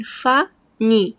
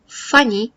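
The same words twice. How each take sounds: First: فا، ني said slowly as two separate beats; split into syllables. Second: Said in the usual way. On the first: Shown as a demonstration. Teacher to class, splitting funny into syllables slowly. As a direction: break funny into فا then ني, slowly. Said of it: "funny بيها مقطعين". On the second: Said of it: "بيها مقطعين".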